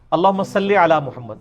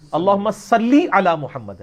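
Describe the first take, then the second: First: "صلی" ending in an open "e", "salle"; wrong majhul vowel. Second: "صلی" slow, ending in a long clear "ii", "sallii"; correct Arabic vowel. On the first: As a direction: run through "صلی" casually as "salle". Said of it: "یہ غلط ہے". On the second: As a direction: draw out "صلی" to a long "lee". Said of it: "عربی میں تو لام زیر لی ہوتا ہے". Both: Shown as a demonstration.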